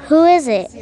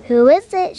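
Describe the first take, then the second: First: Granny calling out to the door; raised voice calling to the door; called out. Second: Higher, louder sugary granny voice; wolf sweetly playing Granny; sweetest Granny voice. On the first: Acted. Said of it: "called out Granny". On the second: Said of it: "in the sweetest Granny voice".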